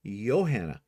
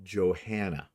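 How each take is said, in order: First: Johanna begun with a Y sound, "Yo-hanna"; wrong pronunciation. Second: Johanna begun with a hard J, "Jo-HAN-na"; correct pronunciation. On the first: Host admitting what she was calling her, Johanna with a Y. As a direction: say Johanna as "Yo-HAN-na". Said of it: "I've been saying her name wrong". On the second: Host teaching the corrected name, Johanna with a J. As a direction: say Johanna with English J and sounded H. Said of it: "her name is actually pronounced". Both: Shown as a demonstration.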